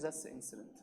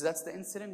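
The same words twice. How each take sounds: First: "That's the incident" very soft and low, falling at the end; "incident" dropped low and final; confirming. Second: "That's the incident" softly asked, rising at the end; "incident" lifted into a question. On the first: Imam confirms the Arif's question. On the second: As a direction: ask "That's the incident" as a quiet check. Arif questions, imam confirms. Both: Retold or imitated.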